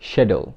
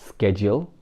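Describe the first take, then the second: First: The word begins with an 'sh' sound. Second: The word begins with an 'sk' sound. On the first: This is the American form. "আমেরিকানরা বলে" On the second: This is the British form. "ব্রিটিশরা বলে"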